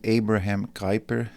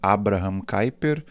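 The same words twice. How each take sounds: First: The name is said with English pronunciation. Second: The name is said with Portuguese pronunciation. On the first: "ou em inglês" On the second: "a gente costuma falar em português"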